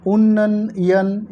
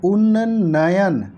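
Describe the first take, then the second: First: उन्नयन drawn out slowly as the mistaken form with an extra n sound; wrong spelling shown. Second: उन्नयन said slowly, syllable by syllable, held double n; careful correct spelling. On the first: Teacher to exam students, slowly showing the wrong उन्नयन. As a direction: stretch उन्नयन slowly to show the wrong version. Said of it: "ये भी गलत हो गया". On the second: Teacher to exam students, slowly spelling the correct उन्नयन. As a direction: stretch उन्नयन out slowly so each sound is clear. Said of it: "ये शब्द होगा दोस्तों". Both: Shown as a demonstration.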